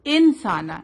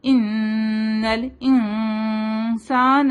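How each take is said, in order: First: انسانا with the noon said clearly, tongue on the palate; wrong clear noon. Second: ان الانسان with the noon hidden and nasal, drawn out slowly. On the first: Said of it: "ہم ایسے نہیں بولیں گے". (انسانا میں نون ظاہر) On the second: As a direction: stretch ان الانسان, noon nasalised not touched. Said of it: "ہم ایسے بولیں گے". (ان الانسان میں اخفا) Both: Shown as a demonstration.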